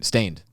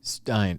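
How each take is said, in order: First: The vowel sounds like 'ay', as in stain. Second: The vowel sounds like 'eye', as in Stein. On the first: The speaker calls it right. "you're saying the word stain" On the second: The speaker calls it wrong. "I pronounce it steined"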